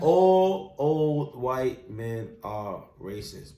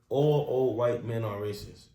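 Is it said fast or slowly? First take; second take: slowly; fast. First: It is said at a slow pace. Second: It is said at a quick pace.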